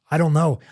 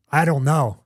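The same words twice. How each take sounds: The two takes are said the same way.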